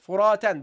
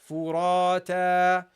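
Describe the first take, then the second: First: The word ends with a final n sound. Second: The word ends on a vowel, without n. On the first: The word sits in the middle of a sentence. "normally you would say, you would pronounce it" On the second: The word is the last in the sentence. "you drop the noon, you say"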